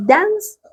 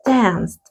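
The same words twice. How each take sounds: First: DANCE high and rising, ending in s; model base form. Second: DANCED falling, with a final t; model past form. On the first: Teacher reviews the present verb with students, model base form DANCE. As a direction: lift DANCE up as the first of two forms. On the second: Teacher reviews the past verb with students, model past form DANCED. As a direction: close the pair with DANCED, t after the s. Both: Shown as a demonstration. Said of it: "Vamos entonces".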